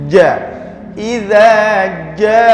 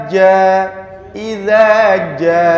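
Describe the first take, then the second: Both takes have the same delivery.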